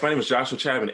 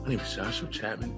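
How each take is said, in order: First: It is said in his plain voice. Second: It is said in a smooth jazz voice.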